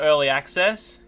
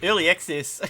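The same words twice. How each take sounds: First: It is said in his normal accent. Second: It is said in a New Zealand accent.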